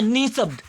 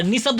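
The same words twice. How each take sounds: First: निशब्द with a drawn-out "nee"; correct form shown. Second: निशब्द with a short "ni"; wrong form shown. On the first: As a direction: hold the first syllable of निशब्द long. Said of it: "ये होता है निशब्द". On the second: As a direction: clip the first vowel of निशब्द short. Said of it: "निशब्द नहीं होता है". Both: Shown as a demonstration.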